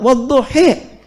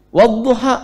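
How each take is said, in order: First: The final vowel is shifted toward E. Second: The final vowel is a clear A.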